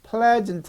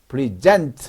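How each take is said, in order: First: The stress is on the first syllable. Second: The stress is on the second syllable. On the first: It is a noun meaning the current time. "현재, 오늘이란 명사고요" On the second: It is a verb meaning to give or offer. "뒤에 액센트가 있으면"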